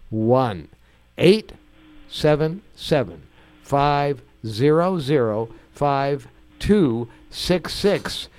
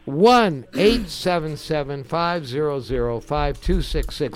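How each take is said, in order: First: The number is read out slowly. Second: The number is read at normal speed.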